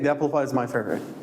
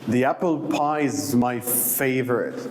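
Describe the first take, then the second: First: It is said flatly without enthusiasm. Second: It is said with real enthusiasm. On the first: The speaker does not seem to mean it. The speaker calls it wrong. "you can't say" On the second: The speaker truly loves it. The speaker calls it right. "you need to show the others, like, it's really your favorite"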